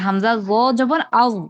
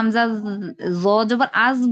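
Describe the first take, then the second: First: The consonant is heavy, with a thick full tongue. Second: The consonant is light, like a plain dh sound. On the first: The speaker calls it right. "একটু ভারী হবে উচ্চারণটা" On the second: The speaker calls it wrong. "জালের উচ্চারণের সাথে মিলে যায়"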